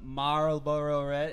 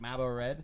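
First: The phrase is said slowly, with every sound enunciated. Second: The phrase is said loosely, with casual reductions. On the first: The speaker is trying to be understood abroad. "really dictated to this guy" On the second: This is how the speaker would normally say it. "without the way I'd actually, like"

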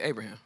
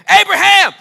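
First: The name is said quietly and calmly. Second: The name is shouted loudly and urgently. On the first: The caller shows no sense of urgency. The speaker calls it wrong. "You don't see somebody about to kill their son and be like" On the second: The caller urgently needs to stop someone. The speaker calls it right. "He yelled it"

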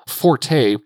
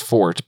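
First: The word is said as two syllables. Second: The word is said as one syllable. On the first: The speaker calls it wrong. "forte it is because that's what most people are familiar with" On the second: The speaker calls it right. "I believe the correct pronunciation is fort"

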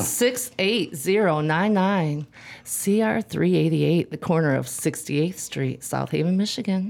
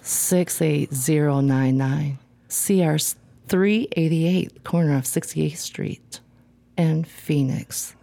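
First: It is read in a plain, matter-of-fact voice. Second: It is read in a sultry, seductive voice.

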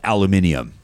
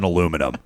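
First: The word is said with a British accent. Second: The word is said with an American accent. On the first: The speaker calls it right. "I like aluminium" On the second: The speaker calls it wrong. "It sounds way better than aluminum"

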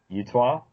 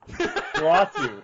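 First: The name sounds like the word Utah. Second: The name is said as Uatu. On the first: The speaker calls it wrong. "How do you pronounce that?" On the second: The speaker calls it right. "Uatu is obviously what I meant to say"

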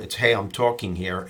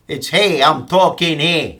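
First: It is said in his plain voice. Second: It is said in a put-on tough-guy voice.

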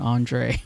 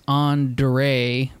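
First: The D sounds like a J. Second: The D is a hard D sound. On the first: "it's more of a J sound" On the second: "Your name is Andre"

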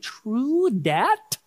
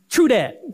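First: It is said with careful, puzzled enunciation. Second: It is said casually, like relaxed slang.

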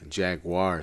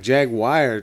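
First: The ending sounds like 'car'. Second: The ending sounds like 'wire'. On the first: "jaguar sounds like a car" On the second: "jaguar to me sounds like Jerry Maguire"

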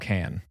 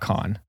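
First: The vowel is like the one in 'can'. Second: The vowel is like the one in 'con'. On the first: The speaker calls it right. "Oh, can" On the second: The speaker calls it wrong. "Not con"

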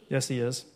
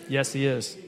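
Both takes have the same delivery.

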